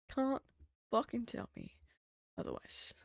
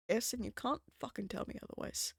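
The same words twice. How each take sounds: First: Can't, fucking, tell me, otherwise spaced out; slow emphatic breakdown. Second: CAN'T hit hard, rest falling; stress on CAN'T. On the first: Shown as a demonstration. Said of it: "same words, split and slower". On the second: Real, not acted. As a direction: lean into CAN'T, then drop off. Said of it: "emphatic claim, repeated slowly".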